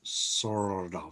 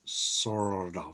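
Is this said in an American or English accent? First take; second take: American; American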